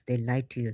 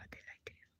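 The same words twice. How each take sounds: First: Said in the usual way. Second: Almost silent whisper of They lied to you; nearly inaudible whisper. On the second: Real, not acted. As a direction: breathe it out with no voice. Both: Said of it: "I'm putting it very bluntly".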